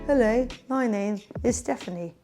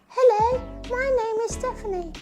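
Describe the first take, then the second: First: It is said in a plain, ordinary voice. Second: It is said in a high puppet character voice.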